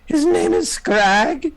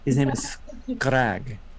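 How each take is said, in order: First: It is said imitating the listeners' accent. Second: It is said with the speaker's foreign accent.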